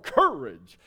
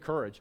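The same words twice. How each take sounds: First: The word is said in a theatrical lion voice. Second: The word is said in a plain everyday voice. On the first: The speaker calls it right. "When you're the lion in the Wizard of Oz, you have to say courage" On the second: The speaker calls it wrong. "you just don't say, hey, courage"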